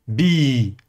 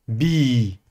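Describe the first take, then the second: The two takes are said the same way.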